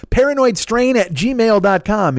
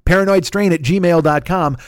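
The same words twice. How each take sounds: First: "Paranoidstrain at gmail dot com" repeated higher and slow; higher, emphatic repeat. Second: Slow, careful read of "paranoidstrain at gmail dot com"; slow spelled-out address. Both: Shown as a demonstration.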